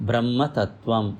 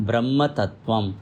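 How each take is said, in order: The two takes are said the same way.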